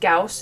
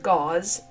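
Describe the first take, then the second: First: The name is said like 'Gauss'. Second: The name is said like 'Gause'. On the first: The speaker calls it wrong. "His name was not pronounced Gauss" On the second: The speaker calls it right. "it was pronounced Gause"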